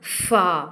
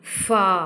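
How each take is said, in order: The two takes are said the same way.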